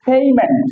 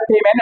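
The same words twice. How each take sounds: First: পেমেন্ট as "PHEY-ment"; corrected pronunciation. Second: পেমেন্ট with plain p, "pe-men"; wrong pronunciation. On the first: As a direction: say পেমেন্ট with breathed p and long "ey". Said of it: "এটা হচ্ছে পেমেন্ট". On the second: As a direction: say পেমেন্ট with no puff on p. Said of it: "not এটা পেমেন্ট". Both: Shown as a demonstration.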